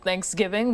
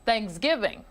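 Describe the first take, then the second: First: The stress is on the first syllable. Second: The stress is on the second syllable. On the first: "with an emphasis on the prefix thanks" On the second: "kick the K and rattle off"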